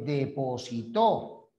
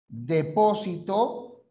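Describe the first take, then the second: First: The stress is on the last syllable. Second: The stress is on the second syllable. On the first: It names an action. "depositó la acción" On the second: It names a place. "Depósito el lugar"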